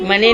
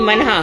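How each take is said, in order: First: The word ends in a plain 'e' vowel. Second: The word ends in a breathy 'aha' sound. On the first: The speaker calls it wrong. "मने नहीं" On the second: The speaker calls it right. "मनहा pronunciation पे ध्यान दो"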